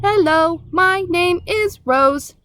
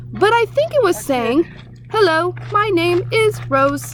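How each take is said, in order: First: Slow, even robot greeting. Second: Raised owl repeating strange words. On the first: Robot introducing herself to the staring animals, slow. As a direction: introduce yourself calmly, machine-like. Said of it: "the robot spoke to the animals in her own language". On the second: Owl repeating the creature's words to the crowd, raised. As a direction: owl puzzled, quoting the monster. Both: A narrator's reading.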